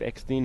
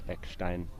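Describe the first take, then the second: First: The name is said with an anglicized pronunciation. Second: The name is said with a German pronunciation. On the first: "was very much South African" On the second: "German pronunciation"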